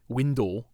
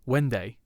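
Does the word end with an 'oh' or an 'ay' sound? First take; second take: oh; ay. First: The word ends with an 'oh' sound. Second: The word ends with an 'ay' sound. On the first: "a stereotypical way of saying that word in Scottish" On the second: "this is actually supposed to be pronounced Wenday"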